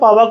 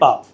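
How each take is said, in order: First: The name ends with a final 'a' vowel. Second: The name ends without a final vowel. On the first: This follows the English spelling. "बोलने को आप बोल लो पावा, कोई दिक्कत नहीं है" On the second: This is what the place is actually called. "लेकिन वैसे उसको कहते हैं पाव"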